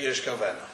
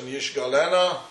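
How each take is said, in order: First: Yishkavena said with a K sound and a V, the way it is read aloud; as pronounced. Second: Yishgalena read as written, with a G sound and an L. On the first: Teacher saying Yishkavena the way the word is read. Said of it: "and we say". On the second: Teacher reading Yishgalena as the Torah writes it. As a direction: say Yishgalena exactly as the letters spell it. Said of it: "and we say Yishkavena". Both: Shown as a demonstration.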